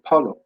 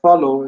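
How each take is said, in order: First: The word begins with a P sound. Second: The word begins with an F sound. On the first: "these people pronounce F to P" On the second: "Instead of saying follow"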